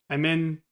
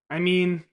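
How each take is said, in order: First: 'Mean' and 'feel' have a short i vowel. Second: 'Mean' and 'feel' have a long ee vowel. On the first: The speaker calls it wrong. "Not, min, feel" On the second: The speaker calls it right. "Instead, mean, feel"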